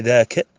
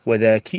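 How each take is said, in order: First: "ذاك" as dhaa-ka, ending in short a; masculine kaf ending. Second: "وذاك" as wa-dhaa-ki, ending in i; feminine kaf ending. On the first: Teacher reciting the branches to students, "ذاك" ending in -ka. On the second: Teacher reciting the branches to students, "وذاك" ending in -ki. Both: Shown as a demonstration. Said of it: "كذلك تكون معها الفروع".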